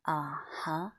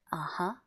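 First: "Uh-huh" drawn out, dipping and then rising; long, deliberate "Uh-huh"; slower uh-huh. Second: "Uh-huh" said briefly with a rise on "huh"; quick "Uh-huh" lifting at the end; everyday agreeing "Uh-huh"; conversational uh-huh. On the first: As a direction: stretch "Uh-huh" slowly into a dip and lift. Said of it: "Just make it slower". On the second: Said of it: "when you say". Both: Shown as a demonstration.

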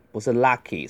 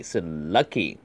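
First: Lucky said with an open ah vowel, wrong. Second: Lucky with a short central uh vowel from the chest; correct vowel. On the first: Teacher showing the wrong way to say lucky, open ah vowel. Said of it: "不要读成啊". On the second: Teacher showing the right chest vowel in lucky. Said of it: "注意那个luck 是那个胸腔音". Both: Shown as a demonstration.

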